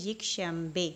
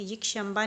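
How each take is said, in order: First: "यकशंबे" ending in an e sound; correct kasra ending. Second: "यकशंबा" ending in an aa sound; mistaken alef ending. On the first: Teacher gives students the right reading, "यकशंबे" ending in e. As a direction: say "यकशंबे" with final e, not aa. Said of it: "बल्कि ये होता है यकशंबे". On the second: Teacher shows students the wrong reading, "यकशंबा" ending in aa. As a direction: say "यकशंबा" with aa instead of final e. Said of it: "यकशंबा नहीं पढ़ेंगे". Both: Shown as a demonstration.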